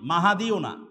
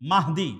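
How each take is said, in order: First: The name is said as Mahadi, with three syllables. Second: The name is said as Mahdi, with two syllables. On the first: The speaker calls it wrong. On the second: The speaker calls it right.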